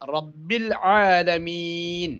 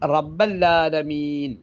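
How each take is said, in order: First: An i vowel, then a clear ain sound. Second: An a vowel follows rabb, then a doubled l. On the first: It means Lord of all the worlds. The speaker calls it right. "ഈ ഐനിനെ നല്ലതുപോലെ സ്ഫുടമായി ഉച്ചരിക്കൽ നിർബന്ധമാണ്" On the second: The phrase comes to contain a word meaning 'not'. The speaker calls it wrong. "ബായിലേക്ക് കസർ കൊടുക്കാതെ ഫതഹ് കൊടുത്താൽ റബ്ബല്ലാലമീൻ"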